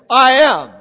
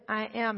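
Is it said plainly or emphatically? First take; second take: emphatically; plainly. First: It is said forcefully, with strong emphasis. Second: It is said plainly, without emphasis.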